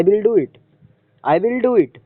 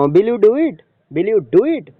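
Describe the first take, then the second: First: "I will do it" higher, then dropping on "it"; falling intonation. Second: "Will you do it" higher, lifting at the end; question tone. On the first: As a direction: make "I will do it" a statement with a final fall. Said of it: "fall होता है". ("I will do it" के अंत में उतार) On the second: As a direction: ask "Will you do it" with a rise. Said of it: "question के tone में". (सवाल का लहजा, "Will you do it") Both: Shown as a demonstration.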